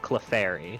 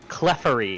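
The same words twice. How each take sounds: First: The word gets its usual pronunciation. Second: The word gets an odd British-style pronunciation. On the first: The speaker calls it right. "instead of" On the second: The speaker calls it wrong. "he was giving you guys a bad name with how he was pronouncing"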